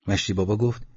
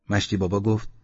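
Both takes have the same delivery.

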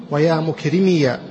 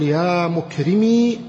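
First: "مكرمي" ending in -miya; voweled final ya. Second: "مكرمي" ending in a long, drawn-out ee; silent final ya. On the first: Teacher showing two permitted forms, "مكرمي" said mukrimiya. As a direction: add a short a after the ya of "مكرمي". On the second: Teacher showing two permitted forms, "مكرمي" with long final ee. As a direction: hold the last vowel of "مكرمي" as ee. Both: Shown as a demonstration. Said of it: "الياء مفتوحة والياء مسكنة".

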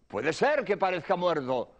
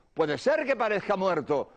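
No difference in how they are said.

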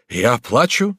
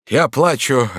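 First: "Я плачу" rising as a question; incredulous question. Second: "Я плачу" falling as a statement; admitting it. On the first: Buvat denies crying to Batilda, "Я плачу" as rising question. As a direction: ask "Я плачу" in tearful disbelief. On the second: Buvat admits tears to Batilda, "Я плачу" as falling statement. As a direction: concede "Я плачу", higher and louder, falling. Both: Acted.

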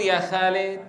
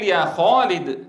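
First: يا خالد with a thin light خ; wrong pronunciation shown; light kha, wrong. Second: يا خالد slow with خالد full and heavy; heavy kha. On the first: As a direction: say خالد with a flat unraised خ. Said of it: "ولا تقول". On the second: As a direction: say خالد with a thick raised خ. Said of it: "العرب تقول". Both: Shown as a demonstration.

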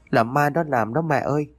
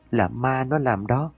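First: Higher pleading sob, "nó" leaned on; crying child, higher. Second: Slow, higher tearful wail, "nó" stretched and rising; crying child. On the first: Boy clinging to his mother, crying higher plea. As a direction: plead through tears, pitch climbing. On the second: Boy clinging to his mother, tearful slow wail. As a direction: sob it out slowly to mother. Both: A narrator's reading. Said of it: "vừa khóc vừa mếu máo".

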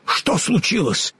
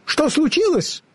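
First: Higher-pitched startled question; Scarecrow character. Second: Very high, squeaky squirrel voice; squeaky derisive question; mocking squirrel. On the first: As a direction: ask in a raised, concerned Scarecrow voice. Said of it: "спросил Страшила". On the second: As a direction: ask tauntingly as a tiny squirrel. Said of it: "насмешливое чоканье белки". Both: A narrator's reading.

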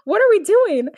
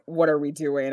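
First: Much higher imitated girl's question; Katara. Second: Low, softer, calm question; Katara, very calm. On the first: Co-host re-enacting Katara for laughs, high-pitched imitation. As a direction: put on a high voice and ask it. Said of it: "Katara's like". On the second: Retold or imitated. Co-host recalling Katara's reaction after the kiss, very calm. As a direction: ask it calmly, pitched down. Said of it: "Katara very calmly was just like".

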